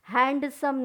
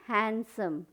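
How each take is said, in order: First: The d sound is clearly pronounced. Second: The d sound is left out. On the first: The speaker calls it wrong. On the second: The speaker calls it right.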